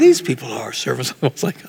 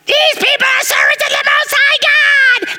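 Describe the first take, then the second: First: It is said in a calm, plain way. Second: It is said in a shrill, irritating way.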